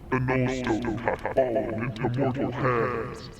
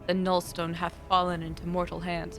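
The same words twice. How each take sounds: First: It is read in a put-on funny voice. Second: It is read in the speaker's normal voice.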